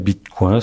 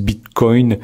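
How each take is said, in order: First: It is pronounced the French way. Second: It is pronounced the English way. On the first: "sans doute que ça se dit comme ça" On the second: "je dis Bitcoin, euh, en anglais"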